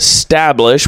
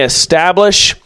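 First: The word starts directly with 'st'. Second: The word starts with an 'eh' vowel. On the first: The speaker calls it right. "but stablish without the E" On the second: The speaker calls it wrong. "I said that wrong, not establish"

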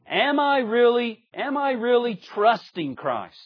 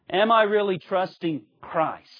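First: The emphasis falls on the word really. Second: The emphasis falls on the word Christ. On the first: It asks how strong the trust is. The speaker calls it wrong. "is not so much" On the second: It asks who the trust is placed in. The speaker calls it right. "But it's"

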